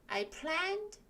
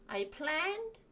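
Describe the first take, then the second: The two takes are said the same way.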